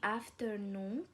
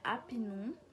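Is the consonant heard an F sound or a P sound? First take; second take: F sound; P sound. First: The word has an F sound. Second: The word has a P sound.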